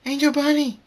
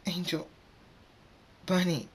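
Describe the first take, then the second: First: Very high, loud cry of a name; horrified scream. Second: High, halting grief-stricken name; crying. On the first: Fluttershy screams as Angel Bunny is hurt, horrified scream. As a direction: scream for a pet in danger. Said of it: "Fluttershy screams". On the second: Fluttershy drops to her knees crying for Angel Bunny, high halting cry. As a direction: mourn the name in two broken pieces. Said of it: "drops to her knees crying". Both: A narrator's reading.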